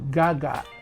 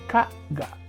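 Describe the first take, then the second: First: The first syllable starts with a G sound. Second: The first syllable starts with a K sound.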